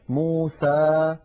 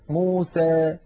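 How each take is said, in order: First: The final vowel is a plain open 'a'. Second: The final vowel leans slightly toward 'ee'. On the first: "فتحا وسطا" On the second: "ويخلطون هذا الصوت بشيء من الياء"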